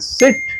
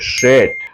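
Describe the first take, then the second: First: The word begins with a plain s sound. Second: The word begins with an sh sound. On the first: The speaker calls it right. "સિટ બેસવું" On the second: The speaker calls it wrong. "એની જગ્યાએ શેટ બોલી દો"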